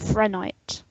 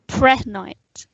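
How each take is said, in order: First: The word begins with an 'fr' sound. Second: The word begins with a 'pr' sound. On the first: The speaker calls it wrong. "instead of" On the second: The speaker calls it right. "if you pronounce it correctly"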